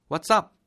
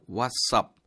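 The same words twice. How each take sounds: First: "What's up?" said high and loud with a stiff rise; overdone Korean-style "What's up?"; the wrong way, too high. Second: "What's up?" linked smoothly, wuts-up; relaxed linked "What's up?"; natural what's up. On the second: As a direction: native "What's up?". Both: Shown as a demonstration. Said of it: "What's up은 아니다".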